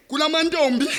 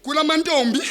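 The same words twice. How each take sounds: The two takes are said the same way.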